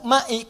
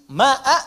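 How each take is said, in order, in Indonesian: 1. Kata itu diakhiri dengan vokal i. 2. Kata itu diakhiri dengan vokal a. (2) "pakai a"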